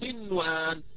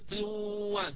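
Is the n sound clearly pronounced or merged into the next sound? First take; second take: clear; merged. First: The n is pronounced clearly before the w. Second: The n is merged into the following w sound. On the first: The speaker calls it right. "إنما أقرأها عادية قنوان" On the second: The speaker calls it wrong. "ما أقول مثلا قنوان، هذا خطأ"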